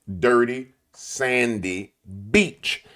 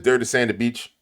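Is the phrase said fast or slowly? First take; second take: slowly; fast. First: The phrase is said slowly and clearly. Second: The phrase is said fast and run together.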